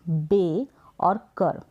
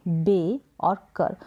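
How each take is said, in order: No difference in how they are said.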